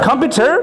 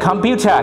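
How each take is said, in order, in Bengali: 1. শেষের r ধ্বনিটি স্পষ্টভাবে উচ্চারণ করা হয়। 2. শেষের r ধ্বনিটি বাদ যায়। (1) "আমেরিকানরা বলতেছে কি জানো" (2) "ব্রিটিশরা বলে কম্পিউটার"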